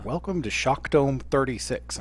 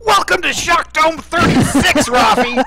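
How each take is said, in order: First: Softly spoken, deadpan announcer; Pat Summerall. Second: High, loud, drawn-out holler; mock announcer yell. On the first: Retold or imitated. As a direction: imitate dulcet, understated broadcast tones. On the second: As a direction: belt out the catchphrase at a friend. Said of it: "it's the same thing where it's like".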